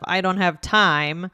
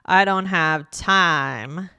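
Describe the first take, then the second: First: The vowels are short and plain. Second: The vowels are drawn out and long. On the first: "instead of" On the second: "you might hear this more clearly with longer vowels"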